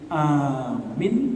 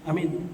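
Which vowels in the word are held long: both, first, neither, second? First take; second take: first; neither. First: Only the first vowel is held long. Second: Both vowels are kept short. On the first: Believe it. "Kalau bacanya a panjang, mi pendek" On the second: Safe. "Kalau bacanya sama-sama pendek"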